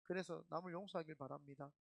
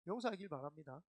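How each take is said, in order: First: Said in the usual way. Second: Laughing correction. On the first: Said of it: "serious line then joke". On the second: Real, not acted.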